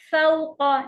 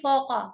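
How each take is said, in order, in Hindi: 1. a और u अलग-अलग बोले जाते हैं। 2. स्वर एक मिली हुई au ध्वनि है। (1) "फ़ौक़ ना कि" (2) "ना कि फ़ौक़, फ़ौ नहीं है"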